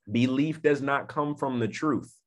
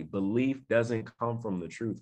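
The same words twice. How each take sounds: First: Said in the usual way. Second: Softer, measured restatement; slow repeat. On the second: Shown as a demonstration. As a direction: say it slowly for it to sink in. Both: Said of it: "Let me say it again slowly".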